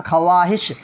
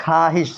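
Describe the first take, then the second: First: خواہش said kha-waa-hish, waw sounded; spelling pronunciation. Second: خواہش said khaa-hish, with no w; silent waw. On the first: Teacher reads out the written form, waw sounded. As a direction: put a clear w into خواہش, as written. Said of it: "لکھا ہے خوا". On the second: Teacher shows how it is actually read, silent waw. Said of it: "لیکن پڑھا جائے". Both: Shown as a demonstration.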